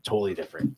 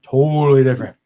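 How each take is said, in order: First: Said in the usual way. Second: "totally" punched much louder; emphatic repeat. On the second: Real, not acted. Telling friends how stars change off stage, loud emphatic repeat. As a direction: hit "totally different" hard and loud.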